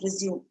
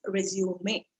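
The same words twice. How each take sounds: First: Resume as re-ZYOOM; two-syllable resume, ending on M; verb pronunciation. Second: Resume as re-zyoo-MAY; three-syllable resume; noun pronunciation. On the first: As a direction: say resume with a silent final E. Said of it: "Resume is a different English word". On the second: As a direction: slowly sound out resume with a final 'may'. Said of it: "So that is resume. This is". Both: Shown as a demonstration.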